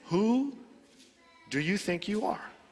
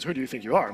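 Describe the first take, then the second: First: It is asked in a sincere, searching tone. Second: It is asked in a bullying, aggressive tone.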